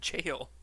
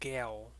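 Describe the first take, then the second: First: The word begins with a J sound. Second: The word begins with a hard G sound. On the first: The speaker calls it right. "it really is just the word jail" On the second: The speaker calls it wrong. "who've pronounced it Gale or Gale"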